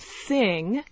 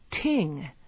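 First: The word begins with a soft TH sound. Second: The word begins with a T sound.

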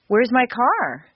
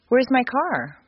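First: It is asked upset, with pitch rising high. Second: It is asked calmly, with a small rise.

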